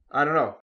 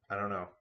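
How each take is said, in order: First: Much louder, higher I don't know; loud teasing. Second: Said in the usual way. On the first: Shown as a demonstration. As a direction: tease them with a loud sing-song. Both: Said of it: "I don't wanna spoil the fun".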